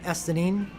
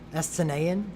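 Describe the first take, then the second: First: The name is said in a short, clipped form. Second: The name is said in a longer, drawn-out form. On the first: The speaker calls it right. "That's not how I'm going to pronounce it" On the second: The speaker calls it wrong. "it's so encumbering and, and ugly"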